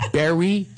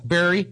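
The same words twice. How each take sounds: First: Philadelphia Berry said like bury; Berry with a Philadelphia vowel, like bury; a doubtful Philadelphia Berry; Philadelphia accent. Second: Philadelphia Berry again, like bury; Berry in Philadelphia speech, a rising try; testing Berry in a Philadelphia accent. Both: Shown as a demonstration. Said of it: "That's my Philadelphia accent".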